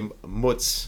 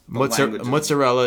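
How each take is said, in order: First: The word is clipped to a short single syllable. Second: The word is said in full with all syllables. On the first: The speaker calls it wrong. "we come in and say mutz" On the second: The speaker calls it right. "mozzarella is probably the right way to say it"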